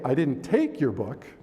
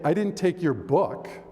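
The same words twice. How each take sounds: First: The word "take" carries the main stress. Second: The word "book" carries the main stress. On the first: Something else happened to it. "something else happened to it" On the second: Something else was taken instead. "I took your computer"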